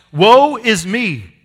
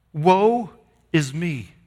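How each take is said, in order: First: Slow, loud cry of woe; shouting. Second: A mild, drawn cry of woe that sinks quickly; half-voiced lament, trailing down. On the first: Retold or imitated. Preacher voicing Isaiah shouting before God, slow loud cry. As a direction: belt it out slowly, stretching every word. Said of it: "He shouts". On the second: Preacher voicing Isaiah's cry, a mild lament. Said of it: "And he cries out".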